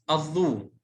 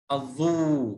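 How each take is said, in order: First: Said in the usual way. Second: الظو with a drawn-out final uu; long vowel. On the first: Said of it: "مع المد". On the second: Shown as a demonstration. Teacher showing waw lengthening to the class, الظو held long. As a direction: hold the waw ending of الظو. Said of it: "طيب مع المد".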